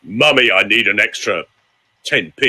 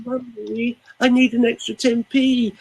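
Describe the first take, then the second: First: Mummy asked in a low, level voice; low-voiced child's request. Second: Put-on wheedling child. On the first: Coach voicing a child asking mummy low. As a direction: ask for money without any whine. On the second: Coach imitating a child asking mummy for money, high and wheedling. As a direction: beg mummy sweetly, higher. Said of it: "when a small child is stressed".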